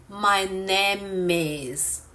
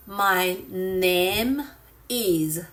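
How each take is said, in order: First: "My name is" run together, the m of "name" carried into "is"; linked words. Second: "My name is" with a clear break before "is"; words said separately. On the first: Teacher showing how natives speak, "My name is" linked smoothly. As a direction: link "name" into "is" as "my na-mis", drawn out. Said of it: "native speakers often say". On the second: Teacher showing learners the unlinked way, "My name is" very separately. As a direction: keep "name" and "is" apart in "My name is". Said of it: "very separately". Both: Shown as a demonstration.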